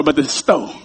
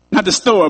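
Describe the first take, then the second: First: "store" said as stoh, the r dropped, lower and softer; folksy store. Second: "store" said plainly as stor, with the r. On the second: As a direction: standard "store", r sounded. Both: Shown as a demonstration.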